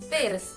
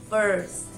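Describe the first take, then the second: First: The vowel is a plain Spanish-style i sound. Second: The vowel is an r-colored American sound. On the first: The speaker calls it wrong. "we tend to pronounce the I as the I we know ... It sounds strange" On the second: The speaker calls it right. "The correct pronunciation is"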